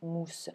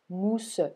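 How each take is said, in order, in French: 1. Le e final est muet, et le mot ne fait qu'une syllabe. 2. Le e final se prononce, formant une deuxième syllabe. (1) "je dis bien mousse" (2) "je ne dis pas mousse"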